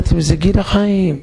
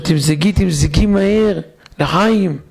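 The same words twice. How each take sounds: First: Higher and slower, savouring the toast; joyful toast repeated. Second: Higher, slow and elated: pour, quickly, lechaim; a man bursting with joy calling for a drink; joyful toast. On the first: Husband repeats to doubtful wife, elated and slow. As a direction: insist happily on the drink. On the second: Husband to his wife, elated high call to toast. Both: Retold or imitated.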